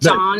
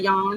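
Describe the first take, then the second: First: The word begins with a J sound. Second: The word begins with a Y sound. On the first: The speaker calls it wrong. "John instead of yawn because I couldn't say the Y" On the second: The speaker calls it right. "instead of yawn"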